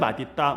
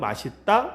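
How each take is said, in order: First: The final consonant links as a d sound. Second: The final consonant links as an s sound. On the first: This is the principle standard pronunciation. "원칙은" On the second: This pronunciation is also permitted as standard. "허용은"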